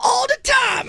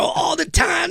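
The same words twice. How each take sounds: First: Very high loud shouted response; mock church shout. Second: Mock church shout; church response shout. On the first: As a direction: shout back like a joyful congregation. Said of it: "They go". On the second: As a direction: shout it like a joyful congregation. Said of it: "I go".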